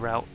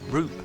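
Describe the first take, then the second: First: It is said with an American pronunciation. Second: It is said with a British pronunciation. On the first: The speaker calls it wrong. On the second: The speaker calls it right.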